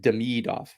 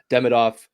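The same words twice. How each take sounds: First: The stress is on the middle syllable. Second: The stress is not on the middle syllable. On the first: The speaker calls it right. "the emphasis is on the middle syl- syllable" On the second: The speaker calls it wrong. "It's not Demidov"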